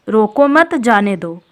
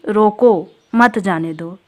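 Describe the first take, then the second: First: The pause comes after 'mat'. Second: The pause comes after 'roko'.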